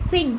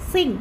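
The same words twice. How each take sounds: Both takes have the same delivery.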